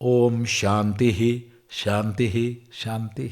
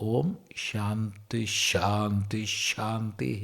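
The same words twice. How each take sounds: First: Each word ends separately without linking sh sound. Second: Each final breath sound becomes sh, linking words. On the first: "Or otherwise" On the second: "the Visarga of the first Shanti will join with the Shakara of the second Shanti"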